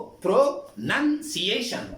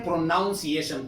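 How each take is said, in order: First: پروننسیشن slowly, with "nun" as its second syllable; careful teacher's model of پروننسیشن, pro-nun-si-ye-shan; correct pronunciation. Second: پروناؤنسیشن with "noun" as its second syllable; پروناؤنسیشن voiced with an "ow" vowel; mispronunciation. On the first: Shown as a demonstration. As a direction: say pro-NUN-ciation, short vowel instead of "ow". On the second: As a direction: say pro-NOUN-ciation, the common learner's error. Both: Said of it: "پروناؤن نہیں ہے".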